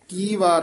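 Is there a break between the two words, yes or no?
no. The two words run together without a break. The speaker calls it wrong. "ਕੀ ਵਾਰ ਨੀ ਕਹਿਣਾ"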